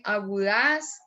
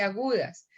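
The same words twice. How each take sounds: First: "agudas" with the stress wrongly dragged onto the final "das". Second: Said in the usual way. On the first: Shown as a demonstration. Teacher showing students what one doesn't say, "agudas" mis-stressed on DAS. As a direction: say "agudas" as a-gu-DAS, stretching the end. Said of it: "uno no dice agudas". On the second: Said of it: "sino dice agudas".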